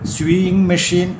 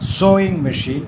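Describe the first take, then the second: First: The first vowel sounds like 'yoo', as in sue. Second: The first vowel sounds like 'oh', as in so. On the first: The speaker calls it wrong. "എന്നല്ല" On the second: The speaker calls it right. "പകരം സോയിങ് machine എന്ന് പറയുക"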